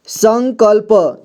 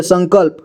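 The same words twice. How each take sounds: First: संकल्प drawn out slowly as san-kal-pa; syllable-by-syllable reading. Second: Said in the usual way. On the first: Shown as a demonstration. Teacher showing learners how to join letters, संकल्प slowly as san-kal-pa. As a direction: sound out संकल्प slowly, final vowel voiced. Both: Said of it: "जोड़ जोड़ करके पढ़ना है".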